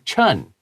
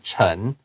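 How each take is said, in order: First: It is said with an English-style pronunciation. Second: It is said with a Mandarin pronunciation. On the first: This is how English speakers read the spelling. The speaker calls it wrong. "他们可能会说 Doctor Chen" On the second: This is the name's original pronunciation. The speaker calls it right. "instead of Chen"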